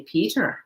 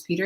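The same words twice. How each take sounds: First: Lightly imitated Irish brogue. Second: Said in the usual way. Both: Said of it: "in her little Irish brogue".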